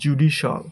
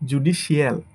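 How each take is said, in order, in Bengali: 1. শেষ অংশটি এক ভাগে বলা হয়: shal। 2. শেষ অংশটি দুই ভাগে বলা হয়: shee-al। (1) "শিয়ালের জায়গায় শল" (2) "এটাকে আমরা বলি"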